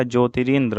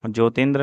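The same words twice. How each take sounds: First: Said in the usual way. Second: ज्योतिन्द्र without the middle r; wrong pronunciation. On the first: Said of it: "होता है". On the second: Shown as a demonstration. Teacher shows students the error, ज्योतिन्द्र missing ri. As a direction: drop the "ri" from ज्योतिन्द्र. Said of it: "नहीं होता".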